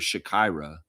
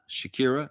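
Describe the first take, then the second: First: Pronounced differently from the famous singer's name. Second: Pronounced the same as the famous singer's name. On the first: This is how a childhood neighbor's name was said. "I always called her [name]" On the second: This is how the player's name is said. "So it's more like the singer"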